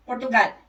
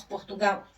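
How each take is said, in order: First: "Portugal" with a dark final L, European Portuguese style; "Portugal" in a European Portuguese accent. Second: "Portugal" with the final L as a U glide, Brazilian style; "Portugal" in a Brazilian accent. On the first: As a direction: say "Portugal" the Lisbon way, L held at the end. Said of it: "eles falam". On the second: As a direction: say "Portugal" the Brazilian way, ending in -gau. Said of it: "como nós". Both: Shown as a demonstration.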